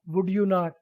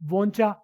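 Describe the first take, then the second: First: Each word is said separately and fully. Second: The words are merged into one short word.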